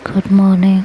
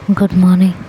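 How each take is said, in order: First: It is said in a softer, gentler tone. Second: It is said harshly and coldly.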